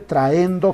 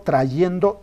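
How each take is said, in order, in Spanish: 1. Las dos vocales se unen sin ningún sonido y. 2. Un sonido y claro separa las dos vocales. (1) "No se dice traendo" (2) "así como se dice cayendo, trayendo"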